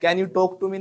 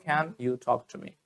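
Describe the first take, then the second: First: Can you talk to me with a hard unaspirated Indian t, louder; the wrong, flat t in talk. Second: Can you talk to me slowly, with a breathy th on talk; right way, slow. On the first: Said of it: "नहीं". (Can you talk to me गलत तरीके से, सपाट ट के साथ) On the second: (Can you talk to me सही तरीके से, धीरे, ठ जैसा टी) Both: Shown as a demonstration.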